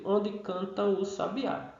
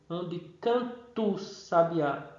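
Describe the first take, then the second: First: The final a and the article are said separately. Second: The final a and the article merge into one syllable. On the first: This is how the line is written. "eu digo na escrita" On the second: This is how the line is recited as verse. "quando eu vou é, recitar isso aqui, a gente diz"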